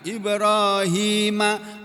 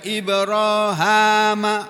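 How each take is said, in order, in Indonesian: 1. Vokal setelah h adalah 'i'. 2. Vokal setelah h adalah 'a'. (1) "yang masyhur, yang terkenal Ibrahima" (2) "tapi ada yang bacanya Ibrahama"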